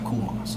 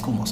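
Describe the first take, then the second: First: The phrase is said slowly, one step at a time. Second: The phrase is said quickly, repeated in rapid succession. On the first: It suits a calm, collected person. "If you're cool and collected" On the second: It leaves no room for the mind to talk itself out of it. "you say it really fast"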